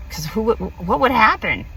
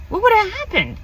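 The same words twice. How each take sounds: First: Said in the usual way. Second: "What would have happened?" lifted high and wistful; wondering aloud, pitched up. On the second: Real, not acted. Repeating her regret about the missed ride, high and wistful. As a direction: ask it again, much higher, dreamily.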